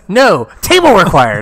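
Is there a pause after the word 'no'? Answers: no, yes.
yes. It has a pause right after the word no. "You just have to change your emphasis"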